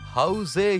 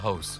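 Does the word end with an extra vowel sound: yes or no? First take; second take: yes; no. First: The word ends with an added vowel sound. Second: The word ends on the consonant sound. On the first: The speaker calls it wrong. "ஹவுஸே இல்ல" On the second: The speaker calls it right. "அது ஹவுஸ்"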